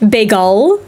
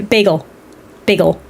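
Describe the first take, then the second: First: "Bagel" with a drawn-out open second syllable, rising; questioning, stretched end on "Bagel"; mispronounced bagel. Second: "bagel" short, rhymed with seagull, falling; matter-of-fact BAY-gull on "bagel". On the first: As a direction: ask "Bagel?" as bay-GAL. Odd take against usual bagel. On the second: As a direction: say "bagel" with an unstressed -gull ending. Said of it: "like seagull". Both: Shown as a demonstration.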